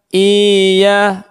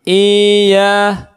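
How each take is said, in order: No difference in how they are said.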